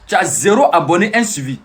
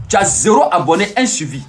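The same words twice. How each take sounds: The two takes are said the same way.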